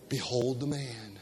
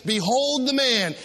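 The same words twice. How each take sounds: First: Low, soft group response; class recitation. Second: Slow, grand announcement; Pilate presenting. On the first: Shown as a demonstration. Congregation finishing the verse, soft and low. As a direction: murmur it back with the class. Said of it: "finish that phrase, please". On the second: Acted. Pilate showing Jesus to the crowd, slow and grand. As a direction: present him to the crowd slowly. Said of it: "he brings him up and he says".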